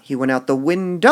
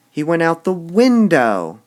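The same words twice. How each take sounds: First: "window" loud with rising tune; wrongly punched "window"; wrong emphasis. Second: "window" shouted loud and high; overstressed window. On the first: Teacher contrasts bad stress reading for class. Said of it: "That sounds like he fell". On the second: Teacher shows the wrong way, shouting "window". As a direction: exaggerate "window" like a fall. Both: Shown as a demonstration.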